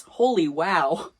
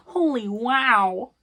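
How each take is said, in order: First: Said in the usual way. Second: "Holy" stretched slowly with a high rising tune; high drawn-out holy wow. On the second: Shown as a demonstration. Reacting to the chapter's reads with a high, slow rising voice.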